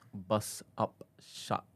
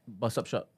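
First: It is said slowly. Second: It is said at normal speed.

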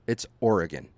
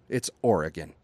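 Both takes have the same delivery.

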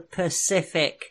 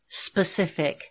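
First: The word starts with a p sound. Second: The word starts with an s sound.

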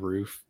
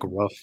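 First: The vowel is long, like in 'roof'. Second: The vowel is short, like in 'rough'. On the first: "instead of roof" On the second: "say like rough instead of roof"

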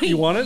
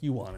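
First: It is asked, rising at the end. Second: It is told, falling at the end.

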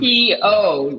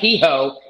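First: The last syllable starts directly with a vowel. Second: The last syllable starts with an h sound. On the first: The speaker calls it right. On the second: The speaker calls it wrong. "Not he-ho"

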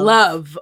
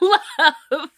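First: The word is said short and plain. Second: The word is stretched out with a long vowel. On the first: Ordinary affection. The speaker calls it wrong. "Not love" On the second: Deep, intense romantic love. The speaker calls it right.

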